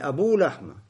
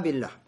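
First: The vowel after the b is u. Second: The vowel after the b is i. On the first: The speaker calls it wrong. "Не Абуллахма" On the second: The speaker calls it right. "а Абиллахма"

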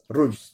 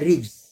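First: The first vowel is a u sound. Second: The first vowel is an i sound. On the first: This is the reading of one particular transmission. "то есть с дхаммой" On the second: This is the reading of most readers. "С кесрой"

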